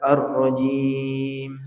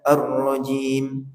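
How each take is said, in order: First: The final long vowel is held for four beats. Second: The final long vowel is held for two beats. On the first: "boleh empat" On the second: "Boleh dua"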